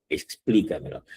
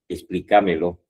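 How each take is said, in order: First: The stress falls on the syllable 'plí'. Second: The stress falls on a syllable other than 'plí'. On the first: The speaker calls it right. "aquí tenemos también las sobresdrújulas" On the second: The speaker calls it wrong. "Explícamelo está mal dicho"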